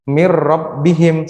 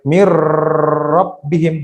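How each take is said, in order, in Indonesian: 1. Bunyi r yang digabung ditahan selama satu ketukan pendek. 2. Bunyi r yang digabung ditahan lama. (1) "satu ketukan" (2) "Nggak boleh ... Itu salah"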